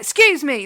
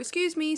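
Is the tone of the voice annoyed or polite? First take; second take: annoyed; polite. First: It is said in an irritated, aggressive tone. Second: It is said in a polite, apologetic tone. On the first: The speaker resents people blocking the way. "if I'm pissed off ... like that" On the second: The speaker is simply asking to get past. "I'm very polite and British"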